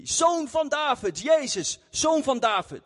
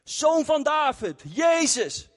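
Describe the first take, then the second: First: High, slow calling out for help; retold shouting. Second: High, slow call, a bit louder; louder retold shout. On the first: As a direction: cry out to him across the crowd. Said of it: "hij begon te schreeuwen". (hoog en langzaam roepen) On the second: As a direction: call out over the people trying to hush him. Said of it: "hij begon nog harder te schreeuwen". (nog harder roepen, hoog en langzaam)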